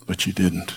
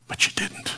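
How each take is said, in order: First: Said in the usual way. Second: A breathy whisper of the verdict; hushed, sorrowful whisper. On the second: Acted. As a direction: breathe it like a final judgment. Imagined judgment-day verdict whispered.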